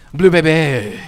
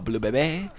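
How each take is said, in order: First: "Bebe" stretched out long and loud; extended word. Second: Said in the usual way. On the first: Shown as a demonstration. Player relishing the character's name, "Bebe" loudly extended. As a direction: draw out the end of "Bebe" with big volume. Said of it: "better when you just slightly extend the word". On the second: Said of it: "That is totally how it needs to be said".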